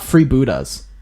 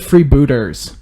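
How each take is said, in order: First: The name ends with an 'a' sound. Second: The name ends with an 'er' sound. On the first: "It's not Freebooters" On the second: "It's actually Freebooters E R"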